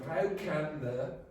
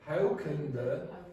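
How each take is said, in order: First: The word 'can' keeps its full vowel sound. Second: The word 'can' is weakened with a short vowel. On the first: "instead of"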